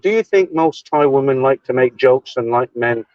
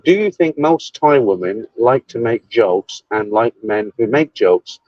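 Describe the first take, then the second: First: It is read at normal speed. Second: It is read slowly.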